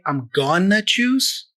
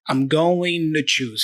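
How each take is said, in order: First: 'Going to' is fully reduced to 'gonna'. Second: 'To' is reduced with a very light D. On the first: "he doesn't say I'm gonna choose" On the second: "He's kind of in the middle"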